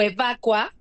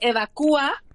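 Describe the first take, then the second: First: The u and a are joined in one syllable. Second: The u and a are split into two syllables. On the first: "sin hiato" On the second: "es válido hacerlo con hiato y sin hiato"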